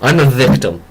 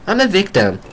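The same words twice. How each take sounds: First: It is said in a plain, normal voice. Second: It is said in a sassy, whiny Weiss voice.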